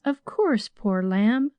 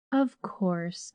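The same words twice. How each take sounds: First: Sung, lift it up tenderly and sweetly; crooning. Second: Sung, breathe it softly like a lullaby; crooning. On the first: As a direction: maid crooning comfort with a lifted voice. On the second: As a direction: maid crooning softly to the girl. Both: A narrator's reading. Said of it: "crooned Nancy".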